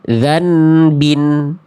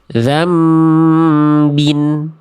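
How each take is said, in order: First: A clear n sound comes before the b. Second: A held m sound comes before the b. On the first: The speaker calls it wrong. "itu nunnya masih jelas kan?" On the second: The speaker calls it right. "nunnya udah nggak ada. Mas apa pindah ke huruf mim"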